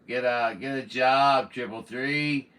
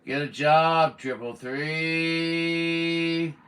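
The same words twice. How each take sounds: First: Louder retort; scolding. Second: Louder and higher, three drawn out very slowly; mocking taunt. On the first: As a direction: tell him off sharply. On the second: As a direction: stretch the last word into a jeering sing-song. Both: Real, not acted. Scolding rude caller on air.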